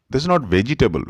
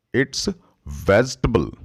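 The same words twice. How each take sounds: First: "vegetable" in four syllables, ve-ji-tay-bul; wrong way. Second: "vegetable" in three syllables, vej-tuh-bul; correct way. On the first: Teacher shows the mistaken four-syllable vegetable. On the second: Teacher gives the right three-syllable vegetable. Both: Shown as a demonstration.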